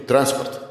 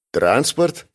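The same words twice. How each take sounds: First: ТРАНСПОРТ stated as a fact, without question; matter-of-fact statement. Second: ТРАНСПОРТ with a rising question tune; questioning echo. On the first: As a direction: give ТРАНСПОРТ as a definitive answer. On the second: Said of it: "мысленно переспросил я". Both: A narrator's reading.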